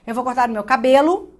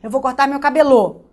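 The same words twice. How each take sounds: First: CABELO stressed naturally as ca-BE-lo; stress on middle syllable. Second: CABELO wrongly stressed as ca-be-LÔ; stress on last syllable. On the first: Teacher finding the stress by ear, middle syllable stressed. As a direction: put the weight of CABELO on BE. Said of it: "Meu ouvido identificou". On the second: Teacher testing a wrong stress, last syllable stressed. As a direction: push the weight of CABELO onto a loud final LO. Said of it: "a sílaba tônica é cabelo". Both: Shown as a demonstration.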